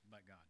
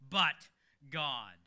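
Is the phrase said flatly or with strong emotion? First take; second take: flat; emotional. First: It is said flatly, with little emotion. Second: It is said with strong emotional charge. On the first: The speaker calls it wrong. "you don't want to just kind of go" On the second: The speaker calls it right. "That's high emotion"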